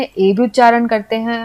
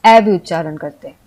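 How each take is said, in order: First: ए as "ay", like way; ए with the vowel of "way"; long A sound. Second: ए opened to "ae", like man; ए pronounced ऐ, an open "ae"; short A sound. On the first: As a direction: say ए as a close "ay" vowel. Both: Shown as a demonstration. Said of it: "ए को हम आ भी उच्चारण".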